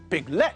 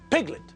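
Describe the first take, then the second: First: The stress is on the second syllable. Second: The stress is on the first syllable. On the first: The speaker calls it wrong. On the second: The speaker calls it right. "the stress is on the first syllable"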